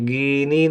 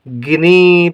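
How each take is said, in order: First: The first vowel is long. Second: The first vowel is short. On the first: The speaker calls it wrong. "गीनी नहीं पढ़ेंगे" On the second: The speaker calls it right. "गिनी पढ़ेंगे"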